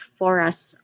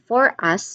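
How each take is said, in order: First: The two words are blended into one. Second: The two words are said separately. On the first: "we blend it" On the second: "like separated"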